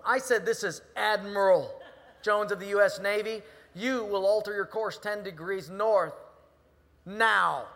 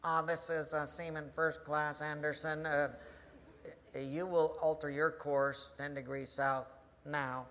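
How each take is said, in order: First: Loud, insistent command; indignant officer shouting orders; admiral on megaphone. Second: Unruffled, halting reply at normal volume; slightly low, hesitant sailor; lightly voiced seaman. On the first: Acted. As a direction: repeat the order, bellowing every word. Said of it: "he gets back on the megaphone". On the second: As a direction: answer a bellowing superior mildly. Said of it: "he hears this voice".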